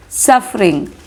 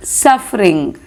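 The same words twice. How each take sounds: The two takes are said the same way.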